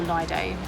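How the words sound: The word is pronounced the British English way.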